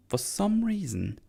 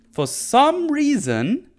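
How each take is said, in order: First: Said in the usual way. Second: "for some reason" much higher, slow, rising; drawn-out rise. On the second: Real, not acted. Recapper baffled by the spell, rising slowly. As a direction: stretch "for some reason" up in disbelief.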